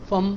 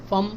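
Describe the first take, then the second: The two takes are said the same way.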